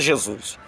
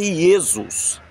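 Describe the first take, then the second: First: The name begins with a 'zh' sound. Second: The name begins with a 'y' sound. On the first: This is a later, altered form of the name. The speaker calls it wrong. "não era Jesus" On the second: This is the original form of the name. The speaker calls it right. "era Jesus"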